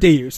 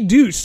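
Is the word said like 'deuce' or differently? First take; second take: differently; deuce. First: The word does not sound like deuce. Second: The word sounds like the English word deuce. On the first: The speaker calls it right. "It is not correct" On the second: The speaker calls it wrong. "There are people who say deuce"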